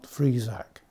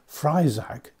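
First: The first vowel sounds like 'ee'. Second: The first vowel sounds like 'eye'. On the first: The speaker calls it right. "and not" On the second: The speaker calls it wrong. "I mistakenly swapped the I and E round. Hence, I have been calling it"

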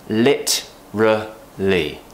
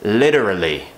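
First: It is said with a British accent. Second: It is said with an American accent. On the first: "British English?" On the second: "An American might pronounce it as literally"

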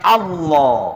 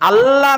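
First: The L sound is thick and heavy. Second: The L sound is thin and light. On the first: The speaker calls it right. "এই নামের উচ্চারণের শুদ্ধ হচ্ছে আল্লাহু আকবার" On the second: The speaker calls it wrong. "আল্লাহ নয়"

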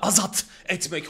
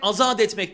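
First: The last sound of azat is a hard t. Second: The last sound of azat is a soft d. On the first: The speaker calls it wrong. "Hayır canım, o kadar da değil" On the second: The speaker calls it right. "söylerken azat etmek diyoruz"

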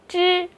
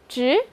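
First: The pitch stays high and level. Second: The pitch rises from mid to high. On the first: "一声" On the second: "二声"

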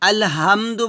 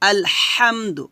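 First: The h is a plain, light breath. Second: The h is pressed from the middle of the throat. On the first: The speaker calls it wrong. "আলহামদু বলা যাবে না" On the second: The speaker calls it right. "গলার মাঝখান থেকে চিকন করে চাপ দিয়ে বলতে হবে"

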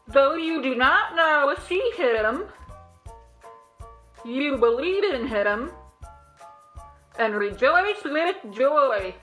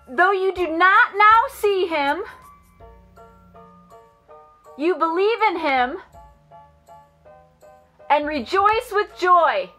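First: It is said in a silly underwater voice. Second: It is said in a loud voice.

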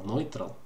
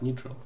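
First: The first vowel sounds like 'oy'. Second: The first vowel sounds like 'ay'. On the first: The speaker calls it wrong. "как ты сказал, нойтрал" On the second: The speaker calls it right. "Ну, как-то так, нейтрал"

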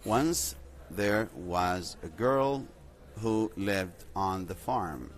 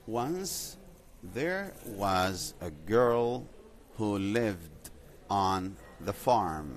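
First: The sentence is spoken at a faster pace. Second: The sentence is spoken at a slower pace.

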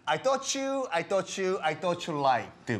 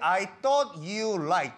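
First: Thought and you blend together into one sound. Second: Thought and you are said as separate words. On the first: "연음이 되는 경우도 많아요" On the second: "이런 발음을 해도 되지만"

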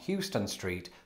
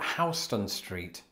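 First: Houston is said like the Texas city's name. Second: Houston is said unlike the Texas city's name. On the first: The speaker calls it wrong. "not Houston Street" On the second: The speaker calls it right. "but Houston Street"

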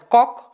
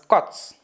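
First: The word ends in a hard k sound. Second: The word ends in a ch sound. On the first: The speaker calls it wrong. "not as Koç" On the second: The speaker calls it right. "but as Koç"

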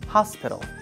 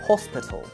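First: The first vowel is an open, unrounded 'ah'. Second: The first vowel is a short, rounded 'o'. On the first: "In American English, we pronounce like ah" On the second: "but in British English, we pronounce like O"

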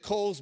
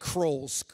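First: The name is said without an r sound. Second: The name is said with an added r sound. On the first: The speaker calls it right. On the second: The speaker calls it wrong.

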